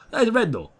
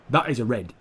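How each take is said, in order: First: Much higher, indignant; high outraged insistence. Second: Said in the usual way. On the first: Real, not acted. Gamer protesting the missing red card, much higher. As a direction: squeak it in disbelief. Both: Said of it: "I don't know why I'm talking like that".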